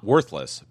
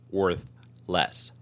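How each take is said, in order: First: The stress falls on the word worth. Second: The stress falls on the word less. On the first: Having no value at all. "I should put the emphasis on the other syllable" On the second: Having a lower value than before. "I should put the emphasis on the other syllable"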